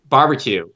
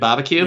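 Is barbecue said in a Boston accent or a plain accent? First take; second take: plain; Boston. First: The word is said flat in a plain accent. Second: The word is said in a Boston accent. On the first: "when you said it just flat" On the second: "Let me hear barbecue with a Boston accent"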